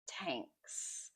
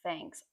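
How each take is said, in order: First: The word begins with a plain t sound. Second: The word begins with a th sound. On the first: The speaker calls it wrong. "Be careful you don't say tanks" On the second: The speaker calls it right. "Be careful with the T H"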